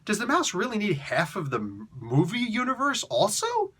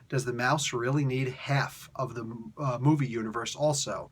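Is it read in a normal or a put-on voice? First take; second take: put-on; normal. First: It is read in a put-on voice. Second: It is read in a normal voice.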